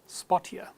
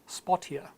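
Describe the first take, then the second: Both takes have the same delivery.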